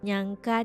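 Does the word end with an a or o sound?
a. It is said in standard Indonesian, ending in a.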